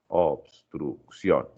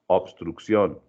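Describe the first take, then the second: First: "obstrucción" very slowly, obs-truc-ción, pausing between syllables; split by syllables. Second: Said in the usual way. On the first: Shown as a demonstration. Teacher showing the class syllable division, "obstrucción" slowly split by syllables. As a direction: break "obstrucción" into three slow, separate syllables. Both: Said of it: "dividir por sílabas".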